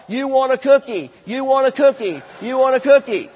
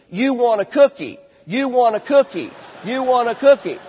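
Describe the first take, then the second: First: Put-on louder yelled echo of the child's words; mock yell. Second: Put-on louder, insistent repetition of the child's words; firm repeating. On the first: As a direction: yell it back to the child on one knee. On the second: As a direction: echo the child back loudly. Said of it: "you just repeat". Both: Shown as a demonstration.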